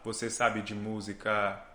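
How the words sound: The pitch stays flat, with rhythm only. "Aqui só usei o ritmo"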